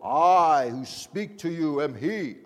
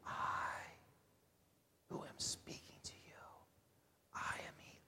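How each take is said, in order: First: It is said loudly and boldly. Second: It is said quietly and softly.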